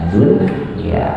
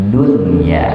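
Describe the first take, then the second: No difference in how they are said.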